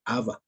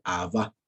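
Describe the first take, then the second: First: "Abba" stressed on the first syllable; wrong stress. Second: "Abba" stressed on the last A; final-syllable stress. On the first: Teacher showing students the mistaken form, "Abba" with first-syllable stress. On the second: Teacher correcting how students say it, "Abba" stressed on the last A. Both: Shown as a demonstration. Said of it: "Con acento en la última".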